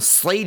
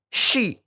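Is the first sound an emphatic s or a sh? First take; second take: emphatic s; sh. First: It starts with an emphatic, heavy s sound. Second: It starts with a sh sound. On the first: The speaker calls it right. "harusnya sli" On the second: The speaker calls it wrong. "dibaca shi"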